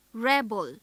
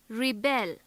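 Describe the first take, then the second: First: REB-el, weak second syllable; stress on first syllable. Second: Ri-BEL, weight on the last syllable; stress on second syllable. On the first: Teacher shows the noun rebel, first syllable stressed. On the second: Teacher shows the verb rebel, second syllable stressed. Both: Shown as a demonstration. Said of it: "Note how the stress on different syllables".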